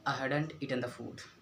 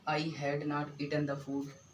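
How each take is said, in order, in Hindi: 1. 'Had not' को एक शब्द में छोटा करके बोला जाता है। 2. 'Had not' को दो पूरे शब्दों की तरह बोला जाता है। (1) "शॉर्ट करके बोलना है, आई मीन कॉन्ट्रैक्ट फॉर्म में" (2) "ऐसे बोलेंगे"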